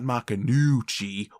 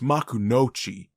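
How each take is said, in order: First: The third syllable has a 'u' vowel. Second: The third syllable has an 'o' vowel. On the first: The speaker calls it wrong. "not Makunuchi" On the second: The speaker calls it right. "It's Makunochi"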